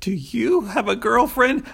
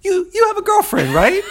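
First: Put-on higher, slow, careful asking of "Do you have a girlfriend?"; tentative question. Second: Put-on shouted way up high, an insistent "You, you have a girlfriend, right?"; pushy tough guy. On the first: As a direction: ask it gently, as he really might have. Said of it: "it comes across like". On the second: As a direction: bark it at him like an order. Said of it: "in my mind, it comes across like".

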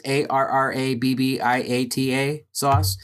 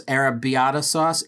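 First: "A R R A B B I A T A" spelled slowly, one letter at a time. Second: Said in the usual way. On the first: Shown as a demonstration. Reading out a quote, spelling out the sauce name letter by letter. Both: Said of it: "I don't know how to pronounce this".

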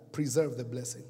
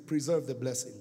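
Both takes have the same delivery.

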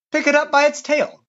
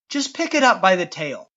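First: Higher-pitched, insistent command; insistent repeat. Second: Said in the usual way. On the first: A narrator's reading. God repeats the order to shrinking Moses, higher and insistent. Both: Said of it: "God repeated".

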